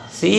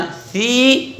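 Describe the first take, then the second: First: Said in the usual way. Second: सी with the vowel drawn out; wrong, stretched reading. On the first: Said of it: "बल्कि". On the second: Shown as a demonstration. Teacher showing what not to read, सी stretched. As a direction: hold सी too long. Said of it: "सी नहीं पढ़ना".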